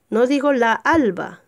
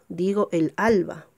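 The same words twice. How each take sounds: First: La alba, the wrong form; wrong article. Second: El alba, said clearly; correct article. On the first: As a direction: say la alba with la before alba. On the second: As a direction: say el alba, with el before alba. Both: Shown as a demonstration.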